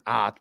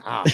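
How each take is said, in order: First: "ah" drawn out as a broad ah; Pittsburgh "ah". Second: "ah" said as an open Pittsburgh ah. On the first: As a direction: lean into the "ah" vowel. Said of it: "I so love saying". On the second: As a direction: say "ah" with a broad open vowel. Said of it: "I just like saying". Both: Shown as a demonstration.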